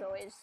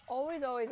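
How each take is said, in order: First: Said in the usual way. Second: "always, always" punched louder, falling firmly; stress on always. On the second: Shown as a demonstration. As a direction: hammer "always" twice as a rule. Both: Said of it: "reverse them".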